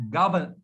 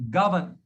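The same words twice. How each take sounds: The two takes are said the same way.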